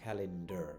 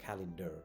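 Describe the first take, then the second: No difference in how they are said.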